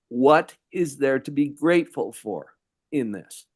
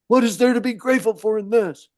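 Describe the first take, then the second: First: It is said as a real question. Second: It is said as an exclamation.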